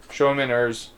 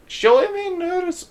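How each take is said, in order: First: Said in the usual way. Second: Much higher, slow, strained German accent; a clumsy try at a German accent; attempted German accent. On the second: Shown as a demonstration. Game narrator retries the line in a German accent. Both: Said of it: "I gotta work on a German accent".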